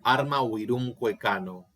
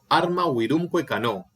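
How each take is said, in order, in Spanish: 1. Los acentos recaen en los acentos normales de las palabras. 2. Los acentos recaen en los tiempos del verso. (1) "Y no digo" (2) "para leerlo métricamente, yo digo"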